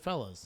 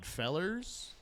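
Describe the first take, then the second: First: The word ends in an open vowel, no R. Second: The word ends with a hard R sound.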